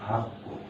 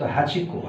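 First: The words merge into one word, hakko. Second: Hachi and ko are said as separate words.

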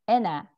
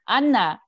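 First: The name is pronounced the English way. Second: The name is pronounced the Korean way.

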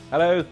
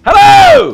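First: It is said with little energy. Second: It is said with more energy.

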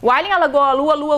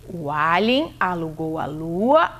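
First: The phrase is spoken at a fast pace. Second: The phrase is spoken at a moderate pace. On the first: "se a gente fizer mais rápido" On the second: "deixa eu ver se eu entendi"

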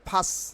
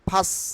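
The two takes are said the same way.

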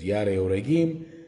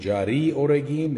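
First: The name is pronounced in a non-English way. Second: The name is pronounced in an English way. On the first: The speaker calls it right. "but it's not English, it's Yare Oregim" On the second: The speaker calls it wrong. "or Jari Oregim in English"

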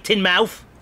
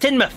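First: The ending has the full 'mouth' vowel. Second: The ending is reduced to a short 'muth'. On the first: The speaker calls it wrong. "You don't say Tynmouth" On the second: The speaker calls it right. "It's Tynmouth"

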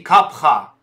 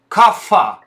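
First: The middle consonant is an aspirated p. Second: The middle consonant is an f sound. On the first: The speaker calls it right. "термина на санскрите капха" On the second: The speaker calls it wrong. "кафа – это неправильное произношение, арабизированное"

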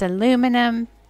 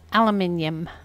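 First: It is said the American way, with four syllables. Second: It is said the British way, with five syllables. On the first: "In America, it's aluminum" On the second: "In England, it's aluminium"

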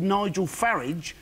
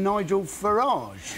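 First: The surname has a plain, everyday pronunciation. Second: The surname has a posher, refined pronunciation. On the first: The bearer is an ordinary working person. "if he was truly a man of the people, surely he'd be called Nigel Farage" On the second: The bearer is upper class. "rather than Nigel Farage"

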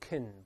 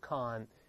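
First: The syllable is weak with a reduced vowel. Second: The syllable is full with a clear vowel. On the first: The speaker calls it right. "我们轻读是发成con" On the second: The speaker calls it wrong. "不要读con"

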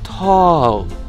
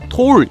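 First: The vowel is open with the mouth wide. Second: The vowel is rounded, like Korean 톨. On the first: The speaker calls it right. "입 진짜 이렇게 벌려야 돼요" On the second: The speaker calls it wrong. "tall 이거 아니고"

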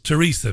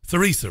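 First: The name begins with a hard t sound. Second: The name begins with a soft th sound. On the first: "they pronounce the TH a hard T. So it's Theresa May" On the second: "We would say"

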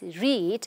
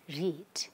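First: The vowel is long, like in 'reed'. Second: The vowel is short, like in 'red'. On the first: This is the present or base form. "the base form, when the verb is read, we need to pronounce it as read" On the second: This is the past tense. "when it becomes the past tense ... we have to read it as read"

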